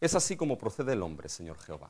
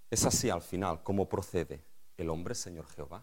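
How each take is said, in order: First: It is said as a statement, falling. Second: It is said as a question, rising.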